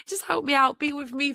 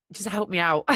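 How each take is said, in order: First: Much higher, playful second take; high playful repeat. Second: Said in the usual way. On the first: Shown as a demonstration. Asking the universe again, now high and playful. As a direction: pitch it way up for a cheeky plea.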